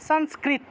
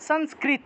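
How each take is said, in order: The two takes are said the same way.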